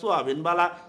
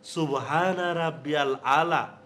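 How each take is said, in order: First: The words are rushed and run together. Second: Each word is pronounced fully and distinctly. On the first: The speaker calls it wrong. "তাড়াহুড়া কইরা" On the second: The speaker calls it right. "শুদ্ধভাবে বলতে হবে"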